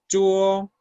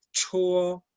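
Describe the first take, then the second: First: "chuo" as zhuo, with little air; held Mandarin "chuo", unaspirated. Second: "Chuo" with a strong puff after CH; aspirated, held Mandarin "Chuo"; expelling air. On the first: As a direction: model "chuo" firmly with no puff at the start. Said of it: "Ahora con esta, expulsamos aire en esta". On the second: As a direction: push breath through the start of "Chuo". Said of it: "expulsamos aire en esta". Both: Shown as a demonstration.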